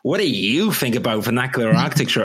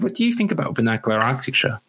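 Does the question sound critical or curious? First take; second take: critical; curious. First: It is asked in a pointed, critical tone. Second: It is asked in a plain, curious tone. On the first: The question is heard as an attack by a critic. The speaker calls it wrong. "because of tone in my head, I'm like" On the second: The question is a genuine invitation to talk. The speaker calls it right. "what you were saying is"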